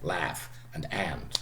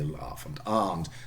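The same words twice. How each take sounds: First: The vowel is the short flat A sound. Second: The vowel is the long open AH sound. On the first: "American English" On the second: "a Brit would say"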